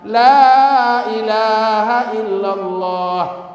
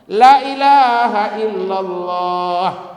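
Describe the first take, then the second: First: The vowel in 'la' is held long. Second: The vowel in 'la' is cut short. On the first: There is no god but God. The speaker calls it right. "La itu kalau panjang itu artinya tidak" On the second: There surely is a god besides God. The speaker calls it wrong. "Tapi kalau dipendekkan artinya sungguh"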